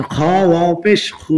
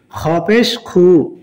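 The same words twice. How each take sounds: First: Final খু with a long held vowel; one-alif stretch. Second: Final খু with a short vowel. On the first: Teacher showing learners the stretch, long final খু. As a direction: draw out the last খু. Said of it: "এক আলিফ টান হবে". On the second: Teacher showing learners the quick reading, short final খু. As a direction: cut the last খু short. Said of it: "তাড়াতাড়ি হবে এখানে". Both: Shown as a demonstration.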